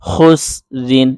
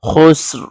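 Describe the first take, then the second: First: The word ends with a full 'rin' syllable. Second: The word stops abruptly on the 'r' sound.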